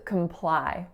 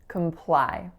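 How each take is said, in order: First: The first vowel is a reduced schwa sound. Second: The same.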